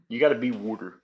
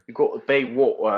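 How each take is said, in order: First: It is said in a Philadelphia accent. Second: It is said in a British accent.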